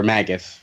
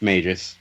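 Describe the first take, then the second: First: Magus said MAG-us; hard-g Magus. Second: Magus said MAY-jus; soft-g Magus. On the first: Offering the other reading, Magus as MAG-us. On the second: Unsure of the villain's name, Magus with soft g. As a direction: say Magus with a J sound. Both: Shown as a demonstration. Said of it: "how are we saying his name".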